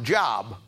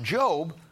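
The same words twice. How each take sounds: First: The vowel is a short o, like 'rob'. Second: The vowel is a long o, like 'robe'. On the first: The speaker calls it wrong. "it was pronounced Job. And his theme of his message was, get a job" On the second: The speaker calls it right. "it wasn't pronounced Job"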